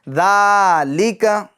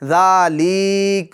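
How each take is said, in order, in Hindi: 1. पहला अक्षर da लंबा खींचा जाता है। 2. अक्षर li लंबा खींचा जाता है। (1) "इसको भी हम खींचेंगे" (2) "ऐसा नहीं"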